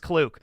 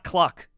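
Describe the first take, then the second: First: The vowel is an 'oo' sound. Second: The vowel is the 'uh' sound of duck. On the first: The speaker calls it right. "It's pronounced Klook" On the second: The speaker calls it wrong. "It's not Cluck"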